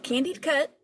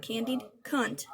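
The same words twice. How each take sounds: First: "Candied Cut" with the n dropped, said as "cut"; accented slip. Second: "Candied Cunt" said slowly, every sound clear, the n in "Cunt" sounded; careful correction. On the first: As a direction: let the accent swallow the n in "Cunt". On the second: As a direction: spell it out with your mouth: "Candied Cunt", slow. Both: Shown as a demonstration. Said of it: "my accent".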